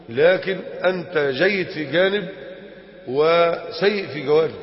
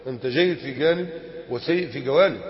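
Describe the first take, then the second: First: Slow emphatic. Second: Said in the usual way. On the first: Shown as a demonstration.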